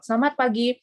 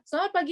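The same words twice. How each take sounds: First: It is spoken at a moderate pace. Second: It is spoken very fast. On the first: The speaker calls it right. "Jadi itu harus dikontrol" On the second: The speaker calls it wrong. "jadi terlalu cepat gitu loh ya"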